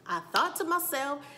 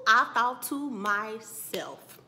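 First: Raised restatement. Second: Very slow and loud; drawn-out emphasis. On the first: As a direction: restate it in a lifted, loud voice. Same words repeated less drawn out. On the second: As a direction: stretch each word out for effect. Drawn-out take before repeating it. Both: Shown as a demonstration.

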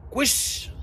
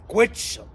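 First: كويشن with a soft sh sound, kwes-shen; softly giving the correct كويشن; correct pronunciation. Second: كويتشن with a hard tch sound, kwee-tchen; mock scolding of the wrong كويتشن; wrong pronunciation. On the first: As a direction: say كويشن the right way, sh instead of tch. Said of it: "اسمها كويشن". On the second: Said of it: "اوعى تقول". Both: Shown as a demonstration.

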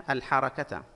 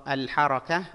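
First: "الحركة" ending in "-ta"; voiced t ending. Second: "الحركة" ending in a soft h; pausal ending. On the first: Teacher showing taa marbuta, sounded t ending. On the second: Teacher showing taa marbuta, pausal h ending. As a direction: stop on "الحركة" with rising "ah". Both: Shown as a demonstration. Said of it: "التاء هنا تاء مربوطة".

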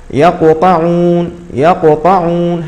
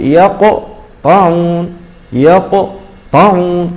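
First: يقطعون read slowly, letters flowing on with no break; correct reading. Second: يقطعون very slow with a stop on the qalqala letter; wrong stop. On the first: A Quran teacher shows students the right way, slow and smooth. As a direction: draw out يقطعون smoothly without stopping. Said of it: "هكذا نقرأ". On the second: Teacher mimics the faulty pause students make, very slow. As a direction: stretch يقطعون with a jerky pause inside. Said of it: "فلا نقول". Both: Shown as a demonstration.

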